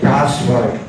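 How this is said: It is said with an American pronunciation.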